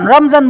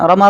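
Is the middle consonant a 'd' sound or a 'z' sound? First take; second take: z sound; d sound. First: The middle consonant is a 'z' sound. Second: The middle consonant is a 'd' sound. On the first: This is the everyday local form. "রমজান বলি" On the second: This is the Arabic form. "আরবি"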